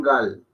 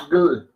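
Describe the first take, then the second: First: "gal" with a full A between g and l; unmerged sounds. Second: "gl" with no A between g and l; merged consonants. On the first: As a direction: open the vowel clearly in "gal". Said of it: "más que un gal". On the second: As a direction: blend g and l tightly in "gl". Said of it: "suena como un". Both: Shown as a demonstration.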